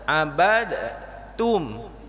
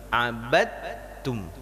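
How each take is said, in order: First: The d is pronounced separately before the t. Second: The d is merged into the following t. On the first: The speaker calls it wrong. "Contoh dibaca abad abad tum, ... susah" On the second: The speaker calls it right. "diidghamkan abad tum"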